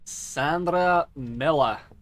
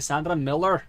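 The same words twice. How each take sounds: First: The final R is faint. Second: The final R is strongly pronounced.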